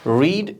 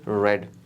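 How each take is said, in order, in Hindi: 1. स्वर लंबा है, 'ee' जैसा। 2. स्वर छोटा है, 'e' जैसा। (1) "ये रीड infinitive and present tense" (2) "जब ये पास्ट टेंस बनता है तो वी प्रोनाउंस ए रेड"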